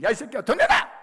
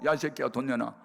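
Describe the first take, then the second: First: High, loud mock shout; explosive imitation yell, rising to the end; retold furious demand. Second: Half-hearted mock demand at normal pitch; toned-down angry demand. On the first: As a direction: act out an enraged mother demanding money. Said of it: "책상을 치면서". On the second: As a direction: repeat the retold threat with less heat. Repeats the mother's demand, less heated.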